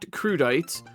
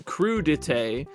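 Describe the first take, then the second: First: It is pronounced the way it is spelled. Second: It is not pronounced the way it is spelled. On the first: The speaker calls it wrong. "not crudite, although it really does look like it's spelled that way" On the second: The speaker calls it right. "I am going to do my best to pronounce crudite"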